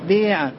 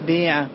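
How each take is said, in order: First: The long vowel is tilted toward an e. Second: The long vowel is tilted toward an e.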